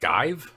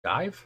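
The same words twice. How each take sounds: First: Skive? asked with a rising question; sounding out the unfamiliar word Skive?; puzzled read. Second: Skive? asked again with a higher rise; puzzled read, higher. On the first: Host sounding out a British word on the list, puzzled. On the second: Host repeating the strange word to the guest, puzzled. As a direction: repeat Skive? pitched up in doubt. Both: Shown as a demonstration. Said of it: "Ha, wait".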